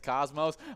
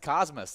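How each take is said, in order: First: The final syllable sounds like 'ohs'. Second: The final syllable sounds like 'us'. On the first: This is how outsiders say the town's name. The speaker calls it wrong. "the mispronunciation is Cosmos" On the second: This is how locals say the town's name. The speaker calls it right. "I already know it, and it's Cosmos"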